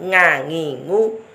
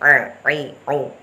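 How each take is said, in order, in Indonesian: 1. Bunyinya dibuat di depan, seperti ng. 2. Bunyinya dibuat di tengah tenggorokan. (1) "Bukan ngangingu" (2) "Tengah-tengah antara ngangingu dan a-i-u, disitulah makhrajnya ain"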